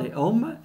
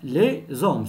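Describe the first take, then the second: First: The two words are said without a linking z sound. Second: The two words are joined with a linking z sound. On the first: The speaker calls it wrong. "On ne dit pas les hommes" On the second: The speaker calls it right. "on fait la liaison"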